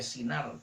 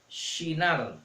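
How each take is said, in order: First: The word begins with a plain s sound. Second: The word begins with an sh sound. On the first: This is the form the Greeks use. "ellos le quitan la h para decir en la tierra de Sinar" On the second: This is the original Hebrew form. "en hebreo se, se pronuncia Shinar"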